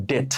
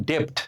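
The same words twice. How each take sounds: First: ডেট with silent b, just "det"; no p or b before the t in ডেট; correct pronunciation. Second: ডেপ্ট with a p sound before t; common mispronunciation. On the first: Teacher answering how it should sound, correctly pronounced. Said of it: "এর উচ্চারণ হবে কি জানেন". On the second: Teacher showing what we call debt, mispronounced. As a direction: say ডেপ্ট as "dept". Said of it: "আমরা ঋণকে ইংরেজিতে বলি". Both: Shown as a demonstration.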